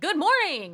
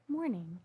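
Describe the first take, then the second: First: The greeting is said with high energy. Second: The greeting is said flat and subdued.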